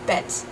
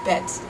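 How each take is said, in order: First: The word ends with a voiceless T sound. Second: The same.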